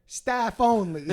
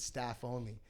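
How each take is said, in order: First: STAFF ONLY drawn out loud and high; "staff only" as a slow, loud mock reprimand; stern emphasis. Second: Said in the usual way. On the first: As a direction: hammer out "staff only" slowly. Vendor scolding a trespassing customer.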